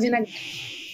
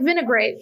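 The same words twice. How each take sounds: First: The word has a Brazilian Portuguese pronunciation. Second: The word has an English pronunciation. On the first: "but we pronounce it vinaigrette" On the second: "It's like vinaigrette"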